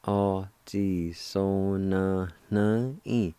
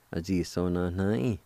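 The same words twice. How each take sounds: First: "O ji so na na in." stretched slowly; slow, careful teaching pronunciation; slow demo. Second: Said in the usual way. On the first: Shown as a demonstration. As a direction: draw out every syllable of "O ji so na na in.". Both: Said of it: "It's pronounced like this".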